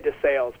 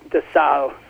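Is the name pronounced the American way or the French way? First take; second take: American; French. First: The name is pronounced in an American way. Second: The name is pronounced in a French way. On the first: "I say de Sales, ... I'm an Indiana boy" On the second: "technically, I think French it would be de Sales"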